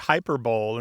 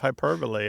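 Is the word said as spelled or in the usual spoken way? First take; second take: as spelled; usual way. First: It is pronounced the way it is spelled. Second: It is pronounced in the usual spoken way. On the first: The speaker calls it wrong. "the number of people who say hyperbole" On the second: The speaker calls it right. "instead of hyperbole"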